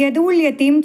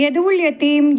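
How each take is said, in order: Both takes have the same delivery.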